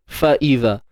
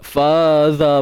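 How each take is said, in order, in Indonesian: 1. Hentian glotal memisahkan fa dari iza. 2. Suku katanya menyambung tanpa hentian glotal. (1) "Ni hamzah baris bawah ni" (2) "Takut nanti tak perasan terbaca dua pula. Faza bacanya kan"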